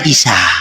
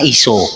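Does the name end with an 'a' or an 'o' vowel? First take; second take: a; o. First: The name ends with an 'a' vowel. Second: The name ends with an 'o' vowel. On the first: This is the Eastern Syriac pronunciation. "kalau Syria Timur pelafalannya Isa" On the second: This is the Western Syriac pronunciation. "Syria Barat itu pelafalannya iso"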